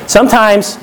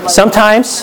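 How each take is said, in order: Both takes have the same delivery.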